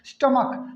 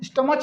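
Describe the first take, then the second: First: The word ends with a k sound. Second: The word ends with a ch sound. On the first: The speaker calls it right. "क का" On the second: The speaker calls it wrong. "स्टमच नहीं है ना"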